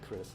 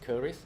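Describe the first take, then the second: First: It is said with the English pronunciation. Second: It is said with the Malay pronunciation. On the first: "in English you can call it Chris" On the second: "the Malay word for that is cuirass"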